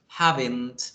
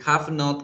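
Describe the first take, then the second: First: It is said as one contracted word. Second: It is said as two separate full words. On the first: "quedaría convertido a haven't" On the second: "el have not"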